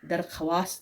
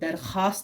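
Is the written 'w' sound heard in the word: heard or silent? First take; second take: heard; silent. First: The written w letter is pronounced aloud. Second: The written w letter is not pronounced. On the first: The speaker calls it wrong. "दरख्वास्त नहीं पढ़ते हैं" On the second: The speaker calls it right. "हम दरख्वास्त पढ़ते हैं"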